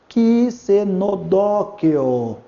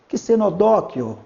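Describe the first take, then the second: First: The word is said very slowly. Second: The word is said slowly. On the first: "Mais devagar" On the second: "Pode falar bem devagar"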